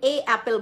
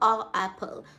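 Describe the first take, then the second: First: The article is said with an 'ay' sound. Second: The article is said with an 'uh' sound. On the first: This is how the others said it. "সে এ অ্যাপেল বলতো না" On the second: This is how the teacher said it. "সে বলতো আ অ্যাপেল"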